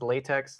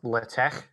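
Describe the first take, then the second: First: It ends with a ks sound. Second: It ends with a throaty ch sound. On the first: It sounds like the rubber material. The speaker calls it wrong. "like the material" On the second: It is the technically intended version. The speaker calls it right. "kind of like loch"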